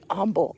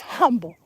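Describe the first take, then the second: First: The word starts without an h sound. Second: The word starts with a clear h sound. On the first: The speaker calls it wrong. "My mother used to say humble" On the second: The speaker calls it right. "Put an H on it, Mom. It's humble"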